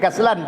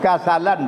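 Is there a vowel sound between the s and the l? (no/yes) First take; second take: no; yes. First: No vowel is heard between s and l. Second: A vowel is heard between s and l. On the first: The speaker calls it wrong. "bukan kaslan" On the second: The speaker calls it right. "kasalan kerana malas"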